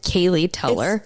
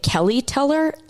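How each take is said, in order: First: The first name sounds like Kaylee. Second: The first name sounds like Kelly. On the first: The speaker calls it right. "it is" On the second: The speaker calls it wrong. "for any of you guys who pronounce it"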